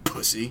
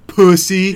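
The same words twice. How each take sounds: First: It sounds harsh and genuinely meant. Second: It sounds light and joking.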